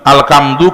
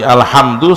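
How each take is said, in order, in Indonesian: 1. Konsonan tengahnya bunyi k yang keras. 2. Konsonan tengahnya bunyi h yang berhembus. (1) "alkamdu kematian" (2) "Alhamdu segala puji"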